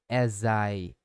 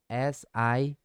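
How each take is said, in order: First: The final consonant links into the next vowel. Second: The two words are said separately.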